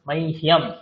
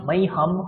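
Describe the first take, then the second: First: The h is followed by a y glide. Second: The h is said plainly, with no y glide. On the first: The speaker calls it right. "যারা যারা এরকম বলছেন হিয়াম, তারাই ঠিক" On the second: The speaker calls it wrong. "মাইহাম হবে না"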